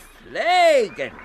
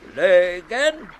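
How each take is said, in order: First: The vowel is an unrounded ä sound. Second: The vowel is a rounded ö sound. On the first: The speaker calls it right. "sondern pflegen" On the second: The speaker calls it wrong. "Und nicht flögen"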